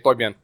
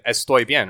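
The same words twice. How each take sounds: First: It is said Dominican-style, dropping the S sounds. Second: It is said in standard Spanish with clear S sounds.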